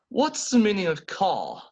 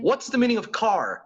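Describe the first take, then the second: First: It is said in a British accent. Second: It is said in an American accent. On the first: "that is British English" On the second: "the same question in American English"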